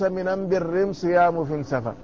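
The article is pronounced with an m sound. It is spoken in a regional dialect. "يبدلون اللام بإيه؟ بالميم، وهذه لهجة حمير"

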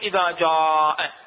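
It is said with an Iraqi dialect pronunciation. The speaker calls it wrong.

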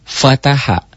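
The syllables run together as one word. "jadi fataha"

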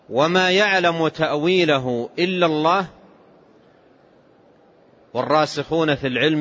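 There is a pause after the word Allah. Only God knows its interpretation.

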